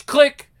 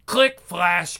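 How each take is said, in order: First: Higher, louder punchy click. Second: Said in the usual way. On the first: Acted. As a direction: pop the last click out. Imitating camera sounds.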